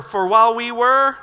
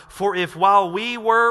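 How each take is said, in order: First: For while we were said much louder; louder reading on request. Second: Said in the usual way. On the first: Shown as a demonstration. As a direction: push the volume up on For while we were. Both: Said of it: "Say it louder".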